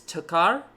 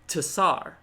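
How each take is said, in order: First: The middle consonant is a hard K sound. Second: The middle consonant is a soft S sound. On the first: "Because it's tekar" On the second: "French, soft C"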